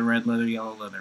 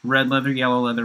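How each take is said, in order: First: Quieter repeat. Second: Quick crisp red leather, yellow leather; fast tongue twister. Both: Shown as a demonstration. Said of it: "loosening up".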